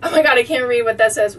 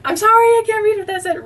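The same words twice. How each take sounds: First: Said in the usual way. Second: High, fast, giggling apology; high, fast laughing sorry. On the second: Real, not acted. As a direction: squeak it out through a laugh. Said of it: "laugh cry".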